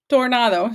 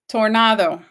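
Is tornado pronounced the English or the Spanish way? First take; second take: Spanish; English. First: It is pronounced the Spanish way. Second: It is pronounced the English way.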